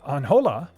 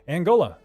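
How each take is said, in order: First: The J is said as a soft sound. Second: The J is said as a hard sound. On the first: The speaker calls it wrong. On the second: The speaker calls it right.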